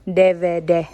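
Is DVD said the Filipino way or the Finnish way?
Finnish. The letters are said the Finnish way. "Pinonounce yun dito sa Finnish"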